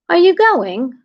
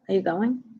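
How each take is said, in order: First: A British accent with a high pitch. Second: A New York accent with a lower pitch. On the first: "You know what English people do? Their accent goes up an octave" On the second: "Like in New York?"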